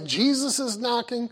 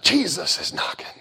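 First: It is said in a plain, ordinary voice. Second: It is said in a breathy, emotional voice.

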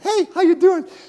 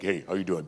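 First: It is said in a high, boyish voice. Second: It is said in a deep, changed voice.

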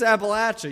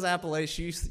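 First: The word is said the local way. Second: The word is said the outsider way. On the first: The speaker is from the region. The speaker calls it right. "It's Appalachia. You know, throw an Appalachia. That's the way we say it" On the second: The speaker is not from the region. The speaker calls it wrong. "If someone says Appalachia, you think, you're not from here"

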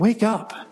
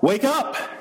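First: It is said in a soft, pleading way. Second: It is said in a loud, booming way.

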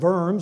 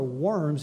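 First: The word begins with a V sound. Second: The word begins with a W sound. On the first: "if you can't say it like I can" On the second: "or Worms, if you can't say it like I can"

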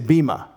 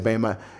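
First: The first vowel sounds like 'ee'. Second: The first vowel sounds like 'ay'. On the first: This is the modern Greek pronunciation. "Today, modern Greek, they say E" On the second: This is the pronunciation traditionally taught. "we usually say A for that letter E in Greek"

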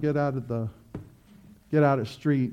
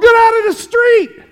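First: It is said calmly and gently. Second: It is shouted loudly and urgently. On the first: A mild request without urgency. The speaker calls it wrong. "I wouldn't say, come on" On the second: An urgent warning of immediate danger. The speaker calls it right. "Not me. I go"

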